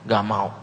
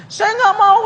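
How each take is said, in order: First: Said in the usual way. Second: High falsetto woman saying no; refusing woman's voice. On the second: Acted. Woman refusing to leave her town, high falsetto. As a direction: squeak the refusal like a pouty girl.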